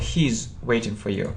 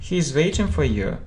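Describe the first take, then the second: First: He and is merge into one syllable. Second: He and is are said as two words.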